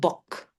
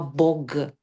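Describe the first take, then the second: First: The final consonant is a voiceless k. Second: The final consonant is a voiced g. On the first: This is the present-day pronunciation. "ahora decimos bok" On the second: This is the older pronunciation. "se pronunciaba bog, la G suena G"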